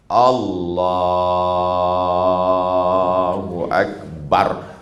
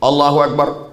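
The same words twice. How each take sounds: First: The phrase is drawn out long. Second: The phrase is said short and quick.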